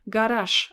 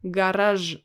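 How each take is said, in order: First: The final consonant is a voiceless 'sh' sound. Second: The final consonant is a voiced 'zh' sound. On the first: The speaker calls it right. "I say garage. ... So it's pronounced as sh" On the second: The speaker calls it wrong. "I don't say garage. ... No, I don't say like this"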